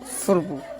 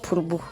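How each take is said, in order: First: The name begins with an 'f' sound. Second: The name begins with a 'p' sound. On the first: The speaker calls it wrong. "not Furbu" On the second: The speaker calls it right.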